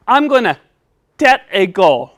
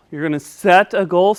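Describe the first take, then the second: First: "set" pronounced "tet". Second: Said in the usual way. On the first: Pretend. Puppet announcing his goal, "set" lisped as "tet". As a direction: start "set" with a T, not an S. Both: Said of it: "help you say your S".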